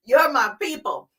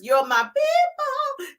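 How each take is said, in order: First: Said in the usual way. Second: High sing-song. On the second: Acted. Repeated rallying line.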